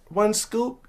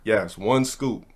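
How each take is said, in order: First: Put-on high child voice rising in disbelief; little boy checking the rule; pitched-up kid question. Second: Said in the usual way.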